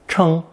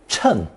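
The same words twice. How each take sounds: First: The pitch stays high and level. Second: The pitch falls sharply from high to low. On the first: "pronounced first tone" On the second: "fourth tone"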